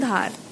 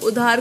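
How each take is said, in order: First: The initial vowel is dropped entirely. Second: The word begins with a vowel sound. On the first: This is the Haryanvi dialect form. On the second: This is the standard form.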